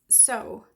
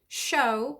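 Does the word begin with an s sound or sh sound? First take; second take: s; sh. First: It begins with a hissing s sound. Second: It begins with a hushing sh sound. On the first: The speaker calls it wrong. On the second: The speaker calls it right.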